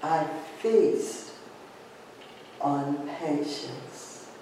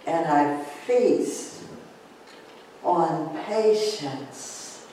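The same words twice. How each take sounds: First: Softer, slow echo of the affirmation; softer repeat. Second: Slow, calm affirmation. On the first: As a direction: let it fade inward, slowly. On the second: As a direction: savour each word slowly. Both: Shown as a demonstration. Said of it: "take a deep breath in".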